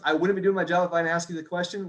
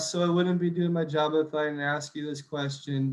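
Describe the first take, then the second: First: It is said in an upbeat, confident tone. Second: It is said in a sad, meek tone.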